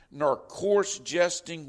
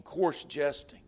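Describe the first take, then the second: First: "coarse" leaned on, slow and louder, falling; solemn scripture reading. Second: Said in the usual way. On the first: Acted. Preacher reading the verse aloud to the congregation, slow and weighty. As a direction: intone "nor coarse jesting" as holy writ. Scripture quoted, then repeated plainly.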